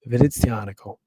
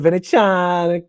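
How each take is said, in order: First: The name ends with a hard C syllable. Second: The name ends without the hard C syllable. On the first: The speaker calls it right. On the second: The speaker calls it wrong.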